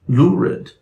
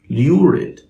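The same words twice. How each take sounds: First: The oo vowel follows with no y sound. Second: A y sound comes before the oo vowel. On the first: "standard American English speaker would say" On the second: "a standard British English speaker would say"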